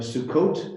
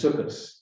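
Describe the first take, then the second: First: The word ends with a t sound. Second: The word ends with an s sound. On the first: This is the Hebrew form. "a T at the end often becomes an S" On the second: This is the Yiddish form. "becomes Sukkos"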